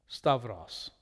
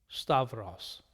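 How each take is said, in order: Both takes have the same delivery.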